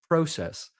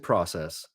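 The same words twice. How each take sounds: First: It is said with a Canadian pronunciation. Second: It is said with an American pronunciation. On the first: "we hear things like process" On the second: "Down here, we'll say process"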